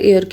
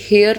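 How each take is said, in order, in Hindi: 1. शब्द सीधे स्वर की आवाज़ से शुरू होता है। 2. शब्द की शुरुआत 'h' की आवाज़ से होती है। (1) "इसकी प्रोनाउंसिएशन एयर वाले एयर की तरह होती है" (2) "हेयर नहीं होता"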